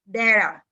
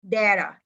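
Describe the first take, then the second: First: It is said with an American pronunciation. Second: It is said with an American pronunciation.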